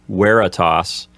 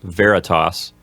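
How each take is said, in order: First: The first sound is a W sound. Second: The first sound is a V sound. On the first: The speaker calls it right. "the letter V sounds like a W. So you would pronounce this word like veritas" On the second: The speaker calls it wrong. "not veritas"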